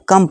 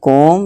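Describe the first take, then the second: First: The vowel is a short uh sound. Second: The vowel is a rounded o sound. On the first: The speaker calls it right. "इसको कम पढ़ेंगे" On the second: The speaker calls it wrong. "ना कि कोम"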